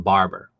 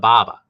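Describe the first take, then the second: First: The r sounds are clearly pronounced. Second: The r sounds are dropped completely.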